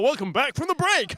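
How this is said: It is said in an American accent.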